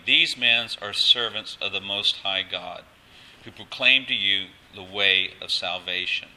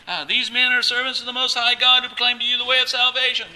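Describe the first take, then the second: First: Mildly loud, measured proclaiming; retold loud proclamation. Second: High, loud wail held on one pitch; imitated screaming. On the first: Preacher quoting the slave girl's cry, loud but measured. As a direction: proclaim it out slowly, a touch louder. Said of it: "She's saying it very loudly". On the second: Preacher mimicking the slave girl Paul heard for days, screaming. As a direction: mimic her nonstop yelling, pitched way up. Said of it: "this lady is screaming".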